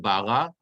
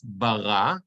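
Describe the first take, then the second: First: Bara stressed on the first syllable; wrong stress. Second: Bara slowly, stress on the second syllable; correct stress. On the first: Teacher contrasts wrong and right stress. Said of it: "It's not bara". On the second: Teacher models stress under the resh, slowly. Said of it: "it's bara". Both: Shown as a demonstration.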